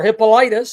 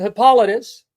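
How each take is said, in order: First: Hippolytus as hip-uh-LIE-tus; alternative pronunciation. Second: Hippolytus with stressed second syllable, hip-POL-uh-tus; first pronunciation. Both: Shown as a demonstration. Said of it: "some pronounce it".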